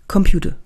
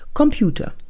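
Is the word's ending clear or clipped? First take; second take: clipped; clear. First: The end of the word is swallowed. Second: The word is spoken fully to its end. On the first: The speaker calls it wrong. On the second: The speaker calls it right.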